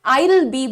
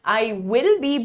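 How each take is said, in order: First: I and will are joined into one syllable. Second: I and will are said as two separate words. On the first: "I'll be भी बिल्कुल सही है" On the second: "I will be भी बिल्कुल सही है"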